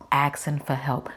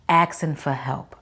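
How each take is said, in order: Both takes have the same delivery.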